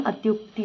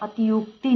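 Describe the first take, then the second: First: अत्युक्ति with a joined "tyuk"; correct pronunciation. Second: अतियुक्ति with a separate "ti-yuk"; wrong pronunciation. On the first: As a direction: say अत्युक्ति without i between t and y. (अत्युक्ति में "त्यु" मिलाकर बोलें) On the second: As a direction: say अतियुक्ति with an extra i after t. (अतियुक्ति में "ति-युक" अलग बोलें) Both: Shown as a demonstration. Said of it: "अत्युक्ति होता है".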